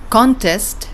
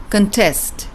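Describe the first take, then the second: First: CON-test, the noun; stress on first syllable. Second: Con-TEST, the verb; stress on second syllable. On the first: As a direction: punch the "CON" of "Contest", light "test". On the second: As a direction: reduce "con" and land on "TEST" in "contest". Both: Shown as a demonstration. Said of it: "according to your syllable stress pattern".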